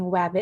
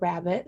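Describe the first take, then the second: First: The word starts with a W sound. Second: The word starts with an R sound. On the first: "substituting it for a W" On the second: "that R sound again"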